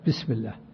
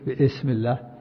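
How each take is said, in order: First: The hamza is dropped and the sounds join. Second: The hamza of ism is pronounced separately. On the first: The speaker calls it right. "تصل" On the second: The speaker calls it wrong. "ما تقول"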